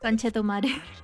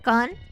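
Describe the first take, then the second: First: It is said smoothly at normal conversational speed. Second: It is said slowly, one syllable at a time.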